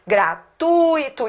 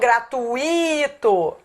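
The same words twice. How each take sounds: First: The u and i blend into one syllable. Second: The u and i form two separate syllables. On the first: The speaker calls it right. "A pronúncia é gratuito. Isso aqui é um ditongo" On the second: The speaker calls it wrong. "e não gratuito"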